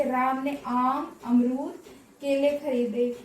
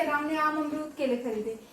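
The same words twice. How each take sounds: First: Slow list, pausing after "आम" and "अमरूद"; commas separating words. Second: Whole list in one go, no comma pauses; run together. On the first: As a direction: set "आम", "अमरूद" and "केले" apart. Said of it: "एक ही प्रकार के शब्दों को अलग". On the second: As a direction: run "आम अमरूद केले" together without a break. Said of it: "हमने तो यहाँ पे स्पीड लिखवा दिया". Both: Shown as a demonstration.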